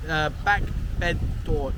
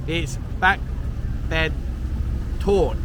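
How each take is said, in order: First: "back bed door" with a mistaken "door" at the end; wrong Thai dish name. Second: "back bed tort" said slowly, ending on "tort", not "door"; corrected Thai dish name. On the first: Vlogger misnames the dish for viewers, a careful wrong try. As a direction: stumble into "back bed door", then catch the slip. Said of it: "I've said it wrong". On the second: Vlogger corrects himself for viewers, careful slow Thai. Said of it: "I'll try again". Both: Shown as a demonstration.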